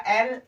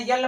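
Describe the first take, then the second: First: "एल" as ell, vowel first; correct pronunciation. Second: "यल" with a y-glide before the L; wrong student pronunciation. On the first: Teacher showing how L should be read, correct pronunciation. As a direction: say "एल" with no y-glide. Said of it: "यहाँ पर F पढ़ा जाएगा". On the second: Teacher showing how students misread the letter L, wrong pronunciation. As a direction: say "यल" as yell, y first. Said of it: "pronunciation बच्चे करते हैं". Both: Shown as a demonstration.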